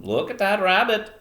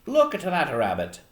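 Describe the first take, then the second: First: Put-on old fisherman with a Maine accent; high, loud attempt at Down East Maine; Eastern Maine accent. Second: Put-on old man slipping into Irish; loud, raised voice with an Irish lilt; attempted Maine accent drifting Irish; accidental Irish accent. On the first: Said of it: "trying to do an Eastern Maine accent". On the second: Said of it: "I'm turning into an Irish accent".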